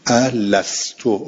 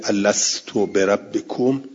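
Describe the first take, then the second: First: الستو drawn out slowly with a rising end; stretched word. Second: Said in the usual way. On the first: Shown as a demonstration. Teacher singles out الستو for students, slow and rising. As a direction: linger on الستو, stretching every syllable, lift the end. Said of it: "الستو، rise". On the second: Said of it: "آیهٔ شریفهٔ".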